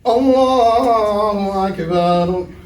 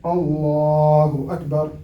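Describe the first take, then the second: First: The phrase is stretched out very long. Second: The phrase is said at normal length. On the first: The speaker calls it wrong. "you started like five minutes ago" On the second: The speaker calls it right. "the correct way of doing it"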